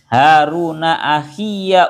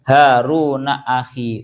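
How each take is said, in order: First: The second word ends with a clear 'ya' syllable. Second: The second word ends on a short 'i' sound. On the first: "membaca fathah terhadap ya-nya lafadz akhi" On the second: "enggak panjang blas, enggak ada ya-nya"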